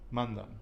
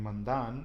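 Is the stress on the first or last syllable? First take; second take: first; last. First: The stress is on the first syllable. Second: The stress is on the last syllable. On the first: The speaker calls it right. "it's mandan. Okay? So it is on the penultimate" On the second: The speaker calls it wrong. "I am not saying mandan"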